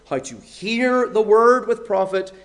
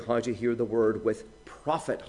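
First: The word hear is stressed. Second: The word how is stressed. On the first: The point is the act of listening itself. "with the stress on hear" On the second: The point is the manner of listening. "how we're to hear exactly"

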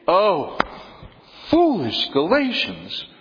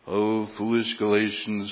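First: It is read with lively animated expression. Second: It is read in a flat monotone. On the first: The speaker calls it right. "this is a very animated letter" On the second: The speaker calls it wrong. "It defies reading in a monotone. I mean, you just can't read"

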